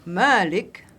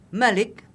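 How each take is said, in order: First: The first vowel is held long. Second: The first vowel is kept short. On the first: It means owner. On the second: It means king.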